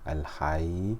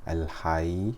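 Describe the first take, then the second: Both takes have the same delivery.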